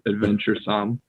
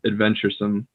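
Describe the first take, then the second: First: The final syllable is full and clearly pronounced. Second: The final syllable is quick and reduced. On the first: "instead of adventuresome" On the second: "I just said it naturally as adventuresome"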